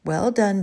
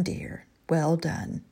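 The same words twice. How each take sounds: First: Soft murmur. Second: Slow, much softer murmur of praise. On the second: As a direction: murmur it tenderly under the breath. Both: A narrator's reading. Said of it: "smiled softly and murmured".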